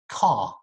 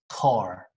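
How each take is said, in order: First: The final r is silent, ending on an open ah. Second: The final r is clearly pronounced. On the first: "a British person, or a lot of Australian people as well" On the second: "But when an American says it"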